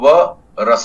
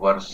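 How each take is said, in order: First: There is a break after the first sound. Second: It is said smoothly with no breaks. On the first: The speaker calls it wrong. "हम इसको व रस नहीं बोलेंगे" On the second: The speaker calls it right. "हम इसको वर्ष"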